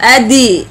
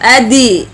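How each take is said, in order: First: The d is followed by an i vowel. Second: The d is followed by an i vowel.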